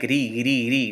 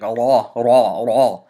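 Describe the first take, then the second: First: The ra sound is thin and light. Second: The ra sound is full and heavy. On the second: "pronounce the letter ra with a heavy voice"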